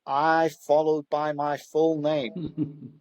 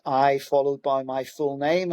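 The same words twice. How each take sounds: First: Very slow, careful parroting of an instruction; slow literal repeat. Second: Said in the usual way. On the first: Retold or imitated. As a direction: repeat it word for word, slowly and dutifully. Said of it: "And he went". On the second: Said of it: "And I went".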